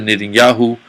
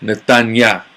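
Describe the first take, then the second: First: The name ends with a 'yahu' sound. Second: The name ends with a 'yah' sound. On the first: "the Yahoo ending" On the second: "that's really how you say it"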